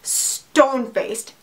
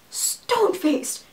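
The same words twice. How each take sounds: First: Said in the usual way. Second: Stone-faced. said higher and softer, drawn out; emphatic repeat. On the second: Shown as a demonstration. Stressing how blank her date stayed, high and slow.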